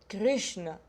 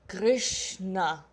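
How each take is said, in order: First: The final vowel is barely pronounced. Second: The final vowel is clearly pronounced.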